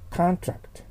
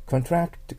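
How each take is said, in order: First: "contract" with the stress on the first syllable, CON-tract, sharply higher; noun stress. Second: "contract" with the stress on the second syllable, con-TRACT, falling; verb stress. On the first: Teacher modelling the noun "contract" for students, stress on CON. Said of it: "これが名詞です". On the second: Teacher modelling the verb "contract" for students, stress on TRACT. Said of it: "contractが動詞です". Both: Shown as a demonstration.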